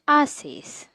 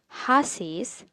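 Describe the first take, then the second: First: The word starts with no h sound. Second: The word starts with an audible h sound. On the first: The speaker calls it right. "H needs to be silent" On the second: The speaker calls it wrong. "You won't read it as haces"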